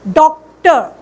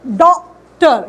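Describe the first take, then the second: First: Said in the usual way. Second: डॉक्टर said slowly, the ओ held long; slow vowel demo. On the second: Shown as a demonstration. Teacher to class, slow drawn-out model word. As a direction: stretch the ओ in डॉक्टर. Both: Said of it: "ये ओ का sound है".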